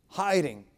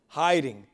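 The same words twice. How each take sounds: The two takes are said the same way.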